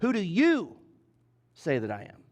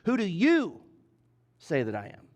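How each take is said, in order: First: The word "you" is stressed. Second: The word "you" is stressed.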